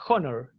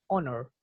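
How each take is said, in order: First: "honor" with a rough aspirated h; sounded H. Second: "honor" starting straight on the vowel; silent H. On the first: Teacher showing what one doesn't say, "honor" with h sounded. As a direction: say "honor" as "honor" with the h heard. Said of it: "uno no dice". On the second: Teacher showing what one says, "honor" with silent h. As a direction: say "honor" as "onor", no h. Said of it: "Uno dice honor". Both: Shown as a demonstration.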